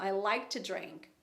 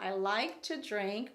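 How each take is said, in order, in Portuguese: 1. 'To' é reduzido a um som curto de T. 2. 'To' é pronunciado devagar, com uma vogal plena. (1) "é muito comum entre os americanos... mas um T" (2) "bem slowly"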